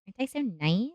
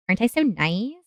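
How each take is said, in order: First: Softer teasing. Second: Teasing singsong. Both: Real, not acted. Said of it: "repeated teasing".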